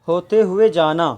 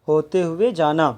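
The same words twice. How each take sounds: Both takes have the same delivery.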